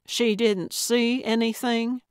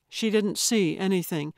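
First: "She didn't see anything?" as an incredulous question, pitched up. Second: Said in the usual way. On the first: A narrator's reading. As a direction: query it in surprise, lifting "anything". Echoes claim as a surprised question.

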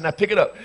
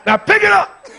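First: Said in the usual way. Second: High, very loud screamed order; screamed command. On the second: Retold or imitated. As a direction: scream it over a screaming child. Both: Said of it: "I'm screaming right along with you".

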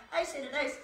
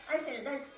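Both takes have the same delivery.

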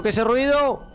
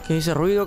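First: Spooked. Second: Said in the usual way. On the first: Acted. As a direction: pitch jumps high in mock fright. Repeats it, spooked and higher.

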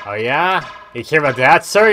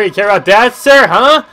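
First: Loud, raised-pitch taunt; mock confrontation. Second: Very loud, high-pitched mock yell; mock yelling taunt. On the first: Streamer taunting a game character, mock confrontation. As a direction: challenge him, getting louder. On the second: Streamer repeating his taunt at a game character, mock yelling. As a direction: scream the challenge at him.

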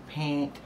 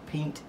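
First: "pint" said like "pant", with an a vowel. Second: "pint" with a nasal i vowel. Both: Shown as a demonstration.

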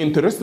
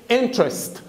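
First: "انترست" with an extra vowel, in-te-rest; mispronounced interest. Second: "انترست" in two syllables, in-trest; correct interest. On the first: Teacher shows students a not quite correct reading, "انترست" mispronounced as in-te-rest. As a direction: say "انترست" in three full syllables, in-te-rest. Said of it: "مش نطق صحيح قوي". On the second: Teacher gives students the word's proper name, "انترست" pronounced correctly as in-trest. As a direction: drop the middle vowel in "انترست": IN-trest. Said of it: "هي اسمها انترست". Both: Shown as a demonstration.

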